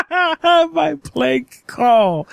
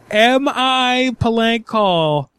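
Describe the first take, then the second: First: Slow, high, giggling through the words; laughing mockery. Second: Drawn-out, deadpan repeat of her phrase; slow mock echo. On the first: Prank caller laughing as he mocks the restaurant clerk's words. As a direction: echo her phrase while cracking up. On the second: Prank caller repeating the clerk's question slowly and mockingly. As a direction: savour each word as you mock it.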